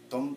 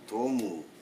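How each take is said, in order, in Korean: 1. 이 이름은 줄여서 한 음절로 발음해요. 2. 이 이름은 온전한 두 음절로 발음해요. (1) "응집 발음하면 ... 이런 정도로 발음할 수 있습니다" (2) "도무는 연진 발음한 것입니다"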